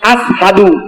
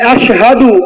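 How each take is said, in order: First: The word is said with an 's' sound. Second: The word is said with an 'sh' sound. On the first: "শিনের জায়গায় তিনি সিন উচ্চারণ করতেন" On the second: "তিনি আশহাদু এটা বলতে পারতেন না"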